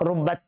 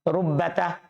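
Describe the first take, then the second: First: The word ends on a bare t sound. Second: The final t is followed by a short vowel. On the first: This form is rare. "kalau disukun ini sedikit" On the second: This is the usual form. "kalau sambung sama huruf dia berharokat"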